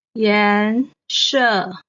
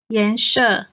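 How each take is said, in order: First: 颜色 drawn out, 颜 rising, 色 falling; stretched teaching 颜色, rising 颜, falling 色; second, fourth tone. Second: Said in the usual way. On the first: Shown as a demonstration. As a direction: say 颜色 syllable by syllable, rising then falling. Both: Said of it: "颜 is the second tone".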